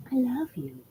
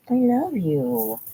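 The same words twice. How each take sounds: First: High, softer pet voice love you. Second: Slow, drawn out love you; tender. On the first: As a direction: coo it to the dog. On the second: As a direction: linger on each word. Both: Real, not acted. Tender words to dog.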